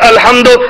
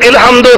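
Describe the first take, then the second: First: The word begins with an a vowel. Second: The word begins with an i vowel.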